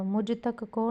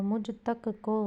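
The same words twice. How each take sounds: First: Said in the usual way. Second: मुझ तक को slowly, word by word; separated words. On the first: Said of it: "नहीं होगा". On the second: Shown as a demonstration. Teacher giving the accepted form, slow and separated. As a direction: space out मुझ तक को. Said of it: "होगा".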